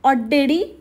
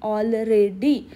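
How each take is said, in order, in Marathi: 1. अक्षरं एकमेकांत मिसळून आणि अस्पष्टपणे म्हणली जातात. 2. प्रत्येक अक्षर वेगळं आणि काळजीपूर्वक उच्चारलं जातं. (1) "परत तेच पहिले पाड्या पंचावन्न" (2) "एक एक शब्द असा सुट्टा सुट्टा प्रोनाऊन्स करून ती बोलली"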